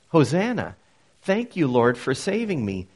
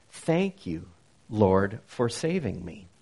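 First: A fuller, stronger declaration of thanks; joyful praise. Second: Grateful prayer. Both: Shown as a demonstration. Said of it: "So Hosanna has come to mean".

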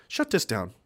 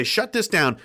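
First: Lightly voiced bureaucrat, softer and lower; a hint of a smug official ordering the shutdown; Walter Peck. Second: Said in the usual way. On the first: Mocking the government order to shut platforms down, softer. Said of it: "Like Walter Peck from Ghostbusters". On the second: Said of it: "They're gonna say".

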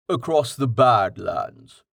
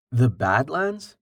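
First: Said in the usual way. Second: "The Badlands" echoed slowly as a question. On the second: Rain queries an unfamiliar name.

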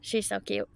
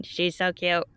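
First: Odd alien-like voice. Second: Said in the usual way. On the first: Real, not acted. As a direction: say it like a space alien. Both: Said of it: "I said that like an alien".

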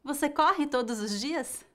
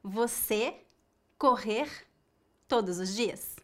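First: "corre" with a faint, unstressed final E; the answer take: "corre", properly conjugated; correct form. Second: "correr" in the infinitive with a full final R; the error take: "correr", not conjugated; wrong form. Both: Shown as a demonstration.

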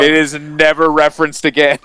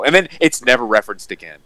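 First: "never" stressed, louder and higher; raised, insistent voice leaning on "never"; emphatic restatement. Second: Said in the usual way. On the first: Real, not acted. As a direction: drive home the word "never". Emphatic restatement after listener agrees.

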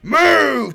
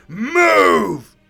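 First: Much louder, higher orc bellow of move. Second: Bellow. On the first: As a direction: drive them out the door. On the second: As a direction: shove them on their way. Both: Acted. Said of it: "he bellowed into the minders' faces".

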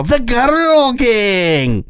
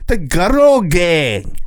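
First: Put-on very high, slow English accent on The Girl Gang; overdone English accent, high and slow. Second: Put-on drawn-out high English accent on The Girl Gang; slow, exaggerated English accent; hammed-up English accent. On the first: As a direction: stretch it out in a hammy English accent. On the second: Shown as a demonstration. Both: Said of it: "really go into the accent, an English accent".

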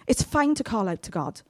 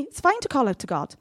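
First: Slower, gentle repeat; slower reassurance. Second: Fast, light first take; quick first say. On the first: Preacher gently repeating it to reassure the congregation. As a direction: ease it down and reassure. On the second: Preacher quickly reassuring the congregation. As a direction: toss it off quickly. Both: Shown as a demonstration.

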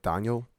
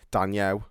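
First: Name said in a Scottish accent; imitated Scottish pronunciation. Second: Name said in a Scouse accent; Liverpool-style Scouse pronunciation. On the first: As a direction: put on a Scottish "Daniel", rising at the end. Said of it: "if I said it in a Scottish accent". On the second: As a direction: put on a Scouse "Daniel". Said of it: "if I say it in a Scouse accent". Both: Shown as a demonstration.

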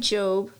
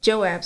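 First: "Job" as one syllable, missing the "ab"; misread name. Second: "Joab" in two syllables, Jo-ab; corrected name. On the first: Reader misreading Joab's name aloud, "Job" in one syllable. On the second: Reader correcting a misread name, "Joab" in two syllables. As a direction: say "Joab" with the "ab" ending sounded. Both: Real, not acted. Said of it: "Joab, sorry".

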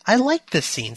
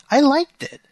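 First: Said in the usual way. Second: High, loud insistence on liked; defending the scene with sudden emphasis; emphatic. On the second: Real, not acted. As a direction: push back eagerly.

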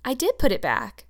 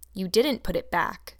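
First: Higher, louder insistence with DID punched; a child's pert protest, hitting "did"; quick, pert. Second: Slow, measured contradiction with weight on "didn't"; understated stern correction, stressing "didn't"; stern accusation. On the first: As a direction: answer back pertly, stressing "did". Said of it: "said Anne quickly. Pertly". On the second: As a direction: flatly deny the child's claim, slowly. Marilla accuses Anne in story. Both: A narrator's reading.

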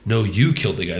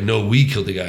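First: You leaned on to pin the blame; light stress on "you". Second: We leaned on to share the blame; light retold stress on "we". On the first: Retold or imitated. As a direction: push the word "you", mildly, in a retold quote. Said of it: "And they were like". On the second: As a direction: push the word "we" a little, mildly. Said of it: "And he's like".

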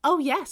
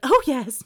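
First: High, loud gleeful exclamation; a sudden villainous delight; maniacal. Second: Much louder hammed-up maniacal cry. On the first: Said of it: "I don't know why I made her sound like that". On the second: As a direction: overdo the villain glee on purpose. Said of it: "It's very maniacal". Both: Shown as a demonstration.

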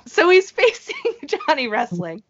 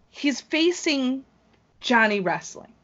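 First: Much higher, laughing restart. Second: Slow, higher announcer-style reveal of the opponent; dramatic announcer build-up. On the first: Real, not acted. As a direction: giggle the matchup out again. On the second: Acted. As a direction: draw it out like a ring announcer hyping the match. Dramatic build to the big matchup.

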